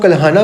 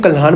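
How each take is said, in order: First: कल्हाना with a long final a, kal-haa-naa; कल्हाना said with the extra final vowel; one way to say it. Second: कल्हान ending cleanly on n, kal-haan; कल्हान said without the final a; other way to say it. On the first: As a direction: end कल्हाना on an open aa sound. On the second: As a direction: clip कल्हान off at the n, no final vowel. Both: Shown as a demonstration. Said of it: "अपनी अपनी pronunciation से".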